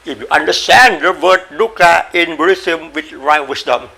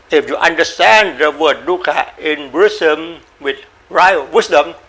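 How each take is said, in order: Both takes have the same delivery.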